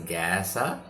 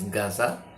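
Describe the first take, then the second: First: Gaza is said with an American English pronunciation. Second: Gaza is said with an Arabic pronunciation. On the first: "the American pronunciation is Gaza"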